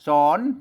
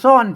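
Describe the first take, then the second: First: The word is said with a rising tone. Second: The word is said with a falling tone. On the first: "สอนเสียงจัตวา" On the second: "อ่านซ่อนเสียงโท"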